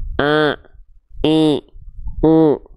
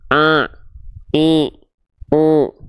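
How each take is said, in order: First: The vowels sound nasal, resonating through the nose. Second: The same.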